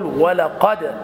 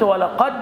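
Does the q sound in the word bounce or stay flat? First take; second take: bouncing; flat. First: The q sound ends with a short bouncing echo. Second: The q sound is cut off with no echo. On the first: The speaker calls it right. "فتقول ولقد" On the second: The speaker calls it wrong. "إذا قلت ولقد خطأ، لأنك ضيعت حكما"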